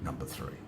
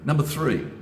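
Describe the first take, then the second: First: Much softer and lower, almost under the breath; soft repeat. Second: Louder, punching out the step number; emphatic announcement. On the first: Restating step three to viewers, soft and low. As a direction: drop the voice right down as you restate it. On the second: Announcing step three to viewers, louder and emphatic. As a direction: announce it with weight to grab the audience. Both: Real, not acted.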